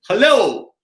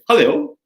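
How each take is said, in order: First: It is said with a very high pitch. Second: It is said with a moderately raised pitch.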